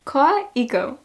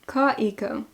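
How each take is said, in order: First: Koiko said KAI-ko with a laugh, tentative; "Koiko" with an open "ah" vowel, laughing, trying it out; Koiko, unsure try. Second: Koiko said KOY-ko, rounded "oi" vowel, falling; "Koiko" with the rounded "oy" sound, settled; Koiko, corrected. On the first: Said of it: "Am I saying that correctly?". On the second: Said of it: "my Long Island accent, even though it's an oa". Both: Real, not acted.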